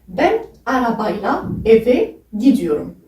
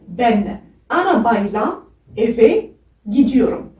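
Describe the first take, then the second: First: Said in the usual way. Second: "ben arabayla eve gidiyorum" said slowly, word by word; slow Turkish demo. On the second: Shown as a demonstration. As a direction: carefully lay out each Turkish word. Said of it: "en langue turque, c'est".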